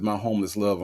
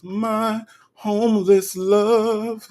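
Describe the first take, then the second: First: Said in the usual way. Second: High, slow and stretched-out words; hammed-up, lingering delivery; dramatic drawn-out repeat. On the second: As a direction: draw out every word in a high, theatrical croon. Dramatic repeat of viewer's phrase.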